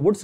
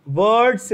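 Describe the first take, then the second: First: वुड्स with a short "oo" vowel; mispronounced name. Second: वर्ड्स with an "uh-r" vowel, drawn out; correct pronunciation. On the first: Teacher showing students the name not to say, mispronounced वुड्स. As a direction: say वुड्स, rhyming with English "hoods". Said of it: "वुड्स नहीं बोलना है". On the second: Teacher correcting students on the reaction's name, careful वर्ड्स. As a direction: say वर्ड्स slowly, like "vurds". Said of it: "क्या बोलना है?". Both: Shown as a demonstration.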